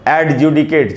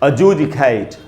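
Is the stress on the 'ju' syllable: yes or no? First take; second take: no; yes. First: The stress is not on the ju syllable. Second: The stress is on the ju syllable. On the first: The speaker calls it wrong. "लोग पढ़ते हैं generally जैसा देखने में लग रहा है" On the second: The speaker calls it right. "जू में जो ऊ है... उसी पर स्ट्रेस है"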